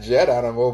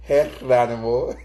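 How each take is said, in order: First: Geronimo said the English way with a hard J; English Geronimo with a J sound; English pronunciation. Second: Geronimo said the Spanish way, with a breathy H for the G; Spanish pronunciation. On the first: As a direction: Geronimo as an English speaker says it, with a J. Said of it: "not Geronimo". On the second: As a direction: Geronimo in Spanish, starting with an H sound, slower. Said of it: "but Geronimo". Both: Shown as a demonstration.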